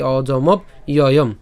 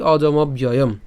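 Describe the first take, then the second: First: Slow অজমব, break, then ইয়য়ম; separated pronunciation. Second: অজমব ইয়য়ম run together as one word; joined pronunciation. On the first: Teacher shows the parts before joining, slow অজমব ইয়য়ম. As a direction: keep অজমব and ইয়য়ম apart, unhurried. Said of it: "আর একসাথে যদি বলি". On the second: Teacher says it all together, joined অজমব ইয়য়ম. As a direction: link the b of অজমব straight into ইয়য়ম. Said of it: "একসাথে যদি বলি". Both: Shown as a demonstration.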